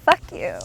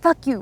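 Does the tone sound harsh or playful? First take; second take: playful; harsh. First: It is said in a light, playful tone. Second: It is said in a harsh, aggressive tone. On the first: The speaker is joking around with someone. "it can be like playful" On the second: The speaker is genuinely insulting someone. "that can be bad. It can sound harsh"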